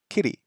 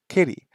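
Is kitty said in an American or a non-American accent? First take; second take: American; American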